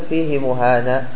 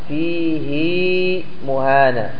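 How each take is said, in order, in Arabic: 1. الهاء تليها حركة قصيرة. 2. الهاء تليها حركة طويلة. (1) "أنت ما تقول فيه مهانة" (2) "لاحظ الياء وصل الهاء وصلناها بياء"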